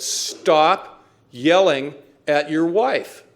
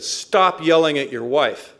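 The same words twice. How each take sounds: First: Word by word, with long pauses; slow, emphatic order. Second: Blunt, emphatic reprimand; firm order. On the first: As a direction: spell it out slowly and loudly, STOP hit hard. Sponsor repeats order more deliberately. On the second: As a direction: lay down the rule firmly, a bit louder. Sponsor's first blunt order, retold. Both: Retold or imitated.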